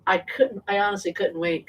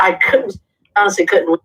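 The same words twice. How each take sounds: First: Said in the usual way. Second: Said again much louder; emphatic louder retake; louder restart. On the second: Real, not acted. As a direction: push the repeat out loud for emphasis.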